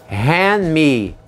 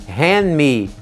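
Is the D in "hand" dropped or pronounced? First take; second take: dropped; dropped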